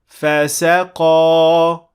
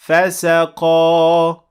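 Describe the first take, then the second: The two takes are said the same way.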